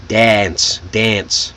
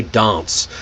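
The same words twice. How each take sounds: First: "Dance" with the flat American "a" of "cat"; American short A. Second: "dance" with a British broad ah vowel; British pronunciation. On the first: Teacher showing students the American "dance", short A vowel. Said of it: "that short A". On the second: Teacher showing students how Brits say "dance", British broad vowel. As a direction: say "dance" as "dahnce", British style. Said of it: "British person ... would say dance". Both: Shown as a demonstration.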